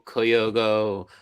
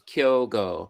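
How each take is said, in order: First: The name is said with three syllables. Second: The name is said with two syllables. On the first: The speaker calls it wrong. "I've heard" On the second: The speaker calls it right. "it's just two syllables"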